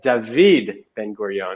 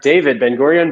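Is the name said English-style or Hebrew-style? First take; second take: Hebrew-style; English-style. First: The name is said the Hebrew way. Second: The name is said the English way. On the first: The speaker calls it right. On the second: The speaker calls it wrong. "was not"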